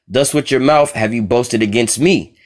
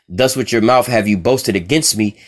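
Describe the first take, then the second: No difference in how they are said.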